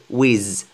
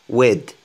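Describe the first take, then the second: First: The word ends with a z sound. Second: The word ends with a d sound. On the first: The speaker calls it wrong. "ne dites jamais, parce que c'est connu en fait, que les Français disent Z" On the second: The speaker calls it right. "prononcez le T H D, comme un D"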